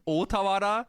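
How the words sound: The name has a Japanese pronunciation. This is how the name is meant to sound. The speaker calls it right. "it's supposed to be like Otawara"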